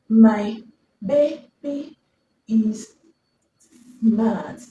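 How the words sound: Each word is separated by a pause. The reader has a fluency problem. The speaker calls it wrong. "he's speaking these words one by one"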